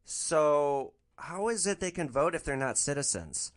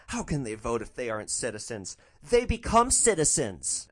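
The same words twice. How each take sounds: First: Slow, mock-innocent question; playing innocent. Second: Amazed repeat. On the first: Driver feigns innocence to trap passenger: slow innocent question. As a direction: ask it slowly like you know nothing. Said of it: "I'm gonna play this really innocent". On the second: Retold or imitated. Passenger echoes driver's question in amazement: mock surprise. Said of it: "repeats to herself in amazement".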